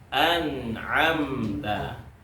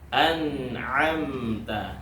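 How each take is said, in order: The two takes are said the same way.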